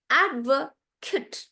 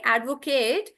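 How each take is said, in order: First: "advocate" with big AD and tiny "kut"; "advocate" broken up as "AD-vuh-kut"; stress on AD. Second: "advocate" ending in a full "KATE"; "advocate" as "ad-vo-KAYT"; verb pronunciation. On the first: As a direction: stretch AD, shrink the rest of "advocate". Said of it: "everything else becomes smaller". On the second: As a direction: say "advocate" with a long AY at the end. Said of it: "instead of saying advocate". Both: Shown as a demonstration.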